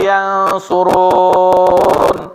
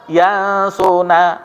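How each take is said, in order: First: The word ends on a stopped consonant. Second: The word ends on an added vowel. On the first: "biasanya kita mematikan uh, ujungnya" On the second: "kita hidupkan"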